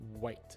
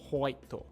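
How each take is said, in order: First: It begins with a strong, rounded W sound. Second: It begins with an 'ho' sound from further back. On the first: "with the strong W sound in English, it's starting just behind the teeth" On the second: "in Japanese, we say hoito"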